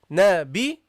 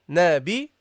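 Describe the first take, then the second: Both takes have the same delivery.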